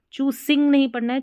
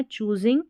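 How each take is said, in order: First: चूजिंग with an s sound, higher and louder, fast; wrong reading. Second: चूजिंग with a clear z sound; चूजिंग, buzzing z; correct reading. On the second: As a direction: say चूजिंग with z in the middle. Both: Shown as a demonstration.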